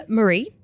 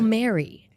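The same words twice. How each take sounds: First: Marie said muh-REE, stressed on the end; name pronunciation. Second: Mary said MAIR-ee, stressed on the start; alternative pronunciation. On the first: Host unsure of a listener's name, Marie as muh-REE. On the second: Host offering another reading of the name, Mary as MAIR-ee. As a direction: say Mary with the first syllable stressed. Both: Shown as a demonstration. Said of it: "I never know how to pronounce that".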